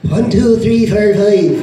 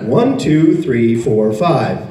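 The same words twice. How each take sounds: First: Put-on Irish accent. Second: Plain, measured American count; American accent. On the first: Imitating a dialect tape, mock Irish accent. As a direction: count in a badly faked Irish brogue. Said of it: "now with the Irish accent". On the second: Retold or imitated. Imitating a dialect tape, American accent. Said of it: "This is an American accent".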